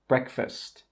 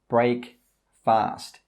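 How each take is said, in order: First: It is said as one blended word. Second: It is said as two separate words. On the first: The speaker calls it right. "The correct pronunciation is breakfast" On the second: The speaker calls it wrong. "Don't say break fast. This is incorrect"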